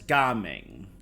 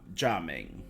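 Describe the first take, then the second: First: The name is said with its Cantonese pronunciation. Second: The name is said with its Mandarin pronunciation. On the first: The speaker calls it right. "since this area and he are more based on the Cantonese translation" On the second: The speaker calls it wrong. "which is Mandarin"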